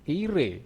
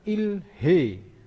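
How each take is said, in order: First: The h sound is dropped. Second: The h sound is pronounced. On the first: "dibacanya menjadi"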